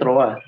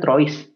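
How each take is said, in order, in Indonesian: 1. Bunyinya seperti troa, s di akhir diam. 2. Setiap huruf yang tertulis dibunyikan, termasuk s di akhir. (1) "tapi kalau aslinya bacanya troa" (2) "Kalau kita baca pakai bahasa Indonesia kan trois"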